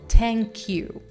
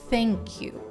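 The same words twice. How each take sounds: First: The th sound is hard and forceful. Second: The th sound is soft and subtle. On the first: The speaker calls it wrong. "don't say thank you" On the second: The speaker calls it right. "It's a very subtle th sound"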